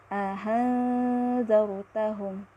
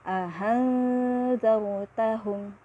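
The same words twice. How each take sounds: No difference in how they are said.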